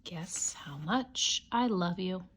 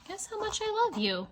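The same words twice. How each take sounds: First: Whisper. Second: High, sing-song title. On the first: Whispering the title to a child at bedtime. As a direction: breathe the title like a secret. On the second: Reading the title to a child in a high voice. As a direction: lift the title up high and playful. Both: Shown as a demonstration. Title read two ways.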